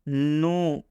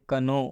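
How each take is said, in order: First: The word begins with an n sound. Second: The word begins with a k sound. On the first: The speaker calls it right. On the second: The speaker calls it wrong.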